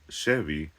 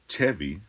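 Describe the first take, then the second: First: It begins with a soft sh sound. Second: It begins with a hard ch sound. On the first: The speaker calls it right. "it's a sh" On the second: The speaker calls it wrong. "it's not a Chevy"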